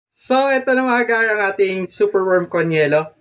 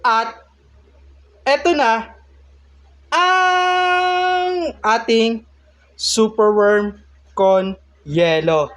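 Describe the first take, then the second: First: Said in the usual way. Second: Rising, high, long-drawn announcer build; dramatic reveal. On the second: Acted. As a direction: stretch it out like a big unveiling. Grand reveal of the finished dish.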